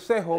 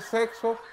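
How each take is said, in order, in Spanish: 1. La consonante del medio es una h gutural. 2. La consonante del medio es un sonido ks. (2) "en vez de ustedes decir"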